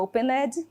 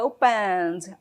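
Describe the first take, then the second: First: The e in the ending is pronounced aloud. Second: The e in the ending is silent. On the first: The speaker calls it wrong. "não falo opened" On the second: The speaker calls it right. "a letra E é muda"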